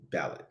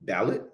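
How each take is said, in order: First: Said in the usual way. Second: Questioning rise with a Haitian accent; unsure, Haitian-tinged repeat; Haitian accent slipping in. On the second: Real, not acted. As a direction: test the word in a slight Haitian accent. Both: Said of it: "that's my Haitian accent coming in".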